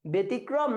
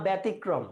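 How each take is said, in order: First: ব্যতিক্রম as "be-tikrom"; closed first vowel. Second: ব্যতিক্রম as "bæ-tikrom"; open first vowel. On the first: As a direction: begin ব্যতিক্রম on a narrow e. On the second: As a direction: begin ব্যতিক্রম on a wide æ. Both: Shown as a demonstration. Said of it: "সংবৃত উচ্চারণ না বিবৃত".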